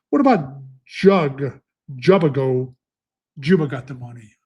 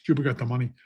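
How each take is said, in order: First: Slow, fumbling "Jug, Jubago" before finding the name; stumbling over the name. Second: Said in the usual way. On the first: Real, not acted. Racing handicapper fumbling a horse's name aloud. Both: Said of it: "I need Hooked on Phonics".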